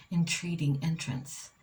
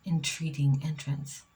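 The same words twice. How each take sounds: The two takes are said the same way.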